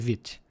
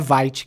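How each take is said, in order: First: It is pronounced with a French-style vowel. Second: It is pronounced with an English-style vowel. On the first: The speaker calls it right. "é vit" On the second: The speaker calls it wrong. "não é vite que a gente fala"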